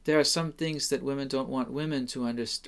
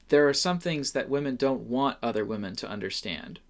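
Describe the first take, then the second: First: The stress falls on the word women. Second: The stress falls on the word understand.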